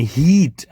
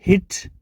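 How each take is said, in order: First: હીટ with a long ee, as in heat; long vowel. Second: હિટ with a short, quick i; short vowel. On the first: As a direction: stretch the ee in હીટ. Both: Shown as a demonstration. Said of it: "આ રીતે ફરક પડશે".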